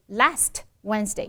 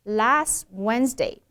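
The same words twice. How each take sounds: First: "last Wednesday" with a popped t; exploded T. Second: "last Wednesday" slow, t left unexploded; unreleased T. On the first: Teacher imitating friends' mistake, t exploded. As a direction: release the t sharply after "last". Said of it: "Notice a lot of friends say". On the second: Teacher reading paragraph correctly, t held back. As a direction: glide from "las" into "Wednesday". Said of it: "That ending T should not be exploded". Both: Shown as a demonstration.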